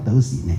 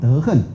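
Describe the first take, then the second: First: The second syllable is read xíng, rising tone. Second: The second syllable is read xìng, falling tone. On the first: It is the verb reading meaning to walk or act. The speaker calls it wrong. "你不能说这个人很有德行" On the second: It is the noun meaning moral conduct. The speaker calls it right. "你当名词的时候叫普贤恨怨平，那读恨啊"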